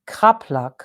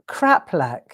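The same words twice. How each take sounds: First: It is said in a German accent. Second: It is said in a plain English accent.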